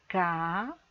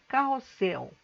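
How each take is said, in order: First: "carrossel" drawn out as ca, rro, ssel with long pauses; very slowly, by syllables. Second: Said in the usual way. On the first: Shown as a demonstration. Teacher showing how to separate syllables, "carrossel" said very slowly. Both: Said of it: "vou falar essa palavra bem devagar".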